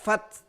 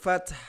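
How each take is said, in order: First: The final h sound is dropped. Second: The final h sound is clearly pronounced. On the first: The speaker calls it wrong. "Tidak fath" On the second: The speaker calls it right. "tetapi ada ha di sana. Kita tetap baca wal fath"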